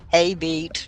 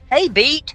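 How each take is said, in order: First: The greeting is calmer and less energetic. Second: The greeting is very loud and energetic. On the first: The speaker calls it right. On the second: The speaker calls it wrong.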